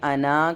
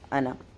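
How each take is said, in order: First: The final vowel is drawn out long. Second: The final vowel is kept short. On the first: The speaker calls it wrong. "अना करके नहीं पढ़ना है" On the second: The speaker calls it right. "सिंगल हरकत में पढ़ना है"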